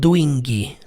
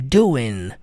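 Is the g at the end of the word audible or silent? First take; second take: audible; silent. First: The final g sound is clearly pronounced. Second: The final g sound is not pronounced. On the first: The speaker calls it wrong. "Eu não falo doing" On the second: The speaker calls it right. "o G não tem pronúncia"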